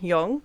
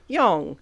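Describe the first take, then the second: First: The pitch rises at the end of the word. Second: The pitch falls down across the word. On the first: "some would rise at the end" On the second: "other ones would f- fall down"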